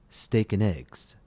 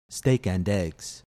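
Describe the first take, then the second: First: The word 'and' is reduced to a short 'n'. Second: The word 'and' is fully pronounced with its vowel. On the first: The speaker calls it right. "I pronounced the word and, A-N-D, as N" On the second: The speaker calls it wrong. "not steak and eggs"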